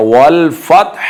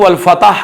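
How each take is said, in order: First: वल फतह with still t, then breathed h; audible final haa. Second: फतह said quickly as "fatah", vowel after t; wrong vowelled ending. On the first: Teacher modelling the correct ending, audible final haa. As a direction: close the t of फतह and let the h sound out. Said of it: "हा की आवाज़ निकालनी है". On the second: Teacher mimicking how people misread it, wrong vowelled ending. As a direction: slip an extra a into फतह. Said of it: "ये गलत है". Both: Shown as a demonstration.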